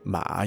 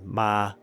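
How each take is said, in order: First: The pitch dips down on the word. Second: The pitch stays level on the word. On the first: It means horse. "your voice dips down" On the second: It means mother. "your voice stays at the same pitch"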